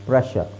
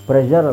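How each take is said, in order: First: The middle consonant is a voiceless 'sh' sound. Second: The middle consonant is a voiced 'zh' sound. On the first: The speaker calls it right. "ಇದೊಂದು word ಮಾತ್ರ ನಿಮಗೆ ಶರ್ ಅಂತ ಬರುತ್ತೆ" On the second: The speaker calls it wrong. "ನಾವೇ ಅದನ್ನು ತಪ್ಪಾಗಿ ಪ್ರೆಷರ್ ಅಂತ ಹೇಳೋದು"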